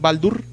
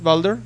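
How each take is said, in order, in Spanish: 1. La sílaba final se pronuncia con la vocal 'u'. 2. La sílaba final se pronuncia con la vocal 'e'. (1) "en nórdico es Baldur" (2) "En inglés es Balder"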